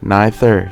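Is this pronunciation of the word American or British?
British. It is said with a British pronunciation. "จะออกเสียงแบบคนอังกฤษ"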